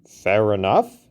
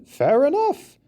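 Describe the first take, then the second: First: Said in the usual way. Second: Much higher, bright concession; high conceding repeat; conceding, pitched up. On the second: A narrator's reading. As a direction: elephant giving in with a lift.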